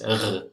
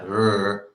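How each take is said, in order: First: The r is made at the back of the throat. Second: The r is a soft English-style r. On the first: "In Hebrew, it's r" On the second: "In English, it's like r"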